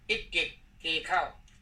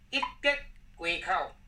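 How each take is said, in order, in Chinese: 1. 第二个音节保持原本的本调。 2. 第二个音节读变调。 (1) "原播音一叠街口，这个是不对的" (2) "这个德要变调，接要用台北腔"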